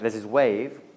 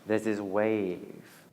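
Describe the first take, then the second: First: It is said in a plain, ordinary way. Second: It is said in a slow, hypnotic way.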